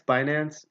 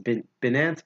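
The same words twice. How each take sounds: First: "Binance" as BYE-nance; long-i pronunciation. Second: "Binance" as BIN-ance, tried out haltingly; short-i pronunciation. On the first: Host testing the other option, "Binance" as BYE-nance. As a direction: say "Binance" with its first syllable like "buy". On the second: Host puzzling over the name, "Binance" as BIN-ance. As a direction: start "Binance" like "bin", with a false start. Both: Shown as a demonstration. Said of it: "how you pronounce that".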